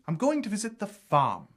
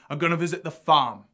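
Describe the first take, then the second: First: A standard British accent, with the r dropped. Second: A Cockney London accent, with the r dropped. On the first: "And in R P, that would be" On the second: "Cockney also uses this non-rhotic R"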